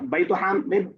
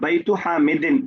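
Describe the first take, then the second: First: The second word ends without any case ending. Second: The second word ends with a full -in ending. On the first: This is also correct. "बैतु हामिद सही है" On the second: This is read out fully for learners. "लेकिन आप जबर जेर इसलिए पढ़िए कि अभी हम लोग सीखना चाह रहे हैं"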